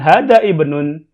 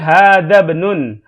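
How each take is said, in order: First: The vowel starting ibnun is pronounced separately. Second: The vowel starting ibnun is dropped and linked. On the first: The speaker calls it wrong. "bukan hada ibnun" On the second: The speaker calls it right. "tapi hada benun"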